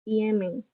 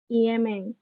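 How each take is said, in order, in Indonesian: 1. Diucapkan dengan suku kata Jepang, i-e-me-n. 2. Diucapkan dengan suku kata Jepang, i-e-me-n.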